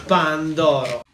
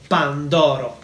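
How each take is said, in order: The two takes are said the same way.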